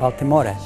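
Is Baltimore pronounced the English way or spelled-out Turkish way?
Turkish. It is read letter by letter, Turkish style. It is read as the letters would sound in Turkish. The speaker calls it wrong. "you read it like Baltimore"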